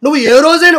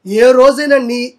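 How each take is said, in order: First: Said in the usual way. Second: Each word of ఏ రోజైనా weighed, slow; slow, stressed రోజైనా. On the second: Real, not acted. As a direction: drag out ఏ రోజైనా slowly. Rhetorical repeat slowed.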